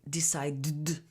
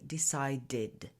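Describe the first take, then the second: First: The ending is merged into the previous sound. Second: The ending is said as a separate syllable. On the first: The speaker calls it wrong. "If we don't separate these sounds" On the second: The speaker calls it right. "you need to separate"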